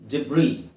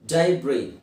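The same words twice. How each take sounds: First: ಡಿಬ್ರಿ said as deb-ree, s silent; second option ಡಿಬ್ರಿ, short deb-ree; pronunciation demo. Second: ಡೈಬ್ರಿ said as dye-bree, s silent; first option ಡೈಬ್ರಿ, dye-bree; pronunciation demo. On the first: Teacher giving the alternative, careful pronunciation. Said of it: "ಅಥವಾ ಡಿಬ್ರಿ". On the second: Teacher giving the first of two options, careful pronunciation. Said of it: "ಎಸ್ silent". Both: Shown as a demonstration.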